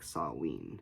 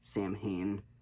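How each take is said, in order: First: It is pronounced differently from its spelling. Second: It is pronounced the way it is spelled. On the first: "it's supposed to be pronounced like Samhain" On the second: "It's spelled like Samhain"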